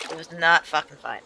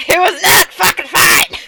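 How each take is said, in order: First: Said in the usual way. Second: "not fucking fine" yelled higher, louder and slower; real shout. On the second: Real, not acted. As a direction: belt out the punchline, exasperated.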